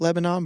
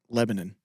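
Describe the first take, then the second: First: It is pronounced the usual way, like the country. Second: It is pronounced the local Tennessee way. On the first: This is the name of the country. "spelled like Lebanon" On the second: This is the name of the Tennessee town. "for some reason, we pronounce it Lebanon"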